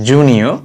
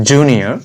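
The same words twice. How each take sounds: No difference in how they are said.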